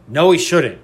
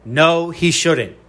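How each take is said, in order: First: Said in the usual way. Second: Drawn out, every word weighted; slow it right down so it lands; slow emphatic no. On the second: Real, not acted. Podcaster rejecting a pundit's MVP pick, slow and emphatic. Repeats rebuttal slowly for emphasis.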